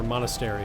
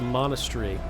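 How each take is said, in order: First: It is said in a non-British accent. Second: It is said in a British accent. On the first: "if you're not from Vui, Britain" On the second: "Was that trying to be British?"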